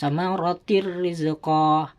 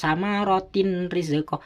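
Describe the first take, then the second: First: The n merges into a doubled r sound. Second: The n is pronounced separately before the r. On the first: The speaker calls it right. "Harus dimasukkan suara tanwin" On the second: The speaker calls it wrong. "tidak boleh dibaca"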